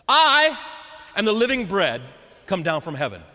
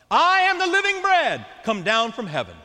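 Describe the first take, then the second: First: Proclaiming loudly. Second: Shouted proclamation. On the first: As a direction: announce it like a proclamation. Jesus proclaims to the crowd. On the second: Jesus repeating his claim to grumbling crowd, shouting. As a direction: shout the whole line, higher and louder. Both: Acted.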